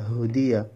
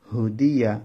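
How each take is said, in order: Both takes have the same delivery.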